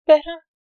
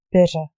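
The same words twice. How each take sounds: First: "Better?" pitched high and loud; questioning "Better?". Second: Reply "Better" firmly, dropping at the end; answering "Better". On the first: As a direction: ask "Better?" on a raised, strong note. Questioning word, then the reply. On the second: Reply to the questioning word. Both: A narrator's reading.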